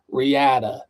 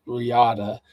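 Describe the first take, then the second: First: "Riata" with the flat A of "cat"; Utah pronunciation. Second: "Riata" with an open AH in the middle; Spanish-sounding pronunciation. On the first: Host demonstrating how Utah folks say it, "Riata" with a cat-like A. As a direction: say "Riata" as ree-AT-uh, middle vowel as in "cat". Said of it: "if you're from Utah, like Ty Evans". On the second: Host showing how they say their mule's name, "Riata" with open AH. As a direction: say "Riata" as ree-AH-tuh, more Spanish. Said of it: "but we pronounce it Riata". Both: Shown as a demonstration.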